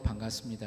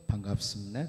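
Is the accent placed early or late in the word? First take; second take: early; late. First: The accent is not placed on the final syllables. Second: The accent falls on the final syllables. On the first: This is the South Korean way of greeting. "우리처럼 반갑습니다 이렇게 인사하지 않고" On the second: This is the North Korean way of greeting. "악센트가 뒤에 가서 붙죠"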